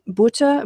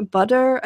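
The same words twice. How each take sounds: First: Butter said the German way, "BOO-tuh"; Butter as a German word; German pronunciation. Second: Said in the usual way. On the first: Shown as a demonstration. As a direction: say Butter with an oo vowel, crisp t and no r. German word beside English cognate.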